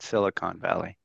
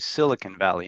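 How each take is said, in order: First: The last syllable has a full 'o' vowel. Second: The last syllable has a reduced 'u' vowel. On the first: The speaker calls it wrong. "not Silicon Valley" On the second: The speaker calls it right. "If you want to sound cool, say Silicon Valley"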